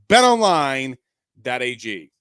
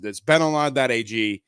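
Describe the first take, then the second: First: Emphatic sponsor tag. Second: Said in the usual way. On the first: Real, not acted. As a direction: punch out BET ONLINE as an ad sign-off. Sponsor tag repeated louder to close.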